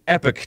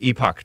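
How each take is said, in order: First: The word is said with an American pronunciation. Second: The word is said with a British pronunciation. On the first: "Americans pronounce it Epoch Times" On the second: "if you're British, you would pronounce it Epoch Times"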